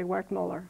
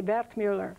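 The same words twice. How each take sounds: First: "Wertmuller" said the American way, with English W; American pronunciation. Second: "Wertmuller" said the Italian way, W as V; Italian pronunciation. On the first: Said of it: "here we just say". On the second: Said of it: "in Italy, they say". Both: Shown as a demonstration.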